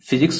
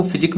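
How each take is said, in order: First: Said in the usual way. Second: "फिजिक" stopping on the k; final s dropped. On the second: Shown as a demonstration. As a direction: say "फिजिक" without the closing s. ("फिजिक", आख़िरी स हटाकर) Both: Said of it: "फिजिक नहीं बोलेंगे".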